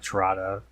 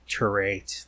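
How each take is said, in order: First: The name ends with an 'ah' sound. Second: The name ends with an 'ate' sound. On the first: "the ancient Greek word for signs and omens" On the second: "like obliterate"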